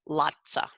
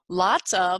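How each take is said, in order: First: The word 'of' is reduced to a schwa. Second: The word 'of' is said in full.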